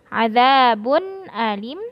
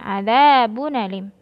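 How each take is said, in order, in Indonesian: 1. Hentian glotis yang jelas terdengar sebelum alim. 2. Bunyi n langsung menyambung ke alim tanpa hentian glotis. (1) "khalaf bitahqiq" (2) "Kalau warash bin nakl waslan waqfan"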